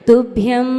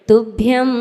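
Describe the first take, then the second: The two takes are said the same way.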